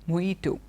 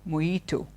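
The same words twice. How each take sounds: No difference in how they are said.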